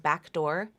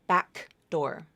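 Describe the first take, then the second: First: The K has only a small release. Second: The K has a full, strong release. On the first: The speaker calls it right. "I just have a little release there" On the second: The speaker calls it wrong. "but it's not back door"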